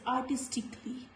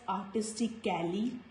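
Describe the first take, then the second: First: The A before the L is silent. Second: The A before the L is pronounced. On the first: The speaker calls it right. "No sound of letter A" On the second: The speaker calls it wrong. "we will not pronounce this word as artistically"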